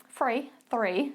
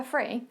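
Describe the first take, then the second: First: "three, three" with a clear th sound; correcting herself: "three" said properly; careful "three". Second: Essex th-fronting, "three" said as "free"; "three" with an f, Essex style; Essex accent. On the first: Shown as a demonstration. Coach correcting her Essex "three" carefully. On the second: Real, not acted. Coach slipping into her Essex accent on "three". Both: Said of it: "sorry, my Essex accent coming out there".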